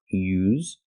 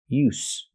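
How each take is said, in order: First: The word ends with a buzzing z sound. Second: The word ends with a hissing s sound. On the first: It is the verb. "making the z sound, the vibration sound like zebra" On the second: It is the noun. "There's no vibration. It's just the s"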